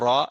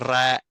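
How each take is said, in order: First: The r is heavy and thick, velarized. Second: The r is light and thin, not velarized. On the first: "au lieu de dire" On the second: "ils font le tarqiq du ra"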